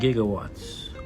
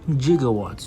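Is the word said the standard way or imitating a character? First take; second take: standard; imitating. First: The word is said in the ordinary way. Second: The word imitates a movie character's pronunciation.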